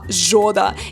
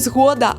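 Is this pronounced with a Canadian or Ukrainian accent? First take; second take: Canadian; Ukrainian. First: It is said with a Canadian English accent. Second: It is said with a native Ukrainian accent. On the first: "канадці намагаються вимовляти цю назву правильно" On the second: "вони кажуть не «згода»"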